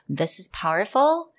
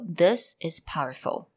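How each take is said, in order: First: The voice rises at the end. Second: The voice falls at the end. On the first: "instead of saying" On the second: "You kind of go downwards"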